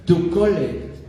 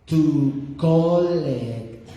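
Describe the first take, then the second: First: Said in the usual way. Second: "To collect" stretched out very slowly. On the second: Retold or imitated. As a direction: spell it out slowly for a confused caller. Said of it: "slowly, slowly".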